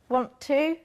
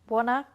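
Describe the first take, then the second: First: Both words are said fully and separately. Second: The two words blend into reduced 'wanna'.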